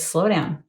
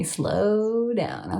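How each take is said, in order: First: Said in the usual way. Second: "Slow" stretched out long, then "down"; drawn-out slow down. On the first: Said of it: "It says". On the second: Retold or imitated. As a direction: draw out the word "Slow" in "Slow down". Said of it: "Okay, I'm slowing down".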